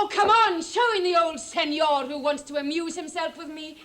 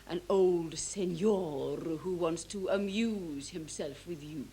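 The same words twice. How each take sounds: First: Loud, high burst that eases off; impatient call. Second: Low, slow and lingering on the words; drawn-out insinuation. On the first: Stepdaughter demanding the old senor's entrance, loud and impatient. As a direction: call out brashly to get things moving. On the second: Stepdaughter recounting the madam's suggestion, slow insinuation. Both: Acted.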